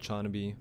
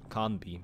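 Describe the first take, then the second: First: The name begins with a ch sound. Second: The name begins with a k sound. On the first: The speaker calls it wrong. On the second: The speaker calls it right.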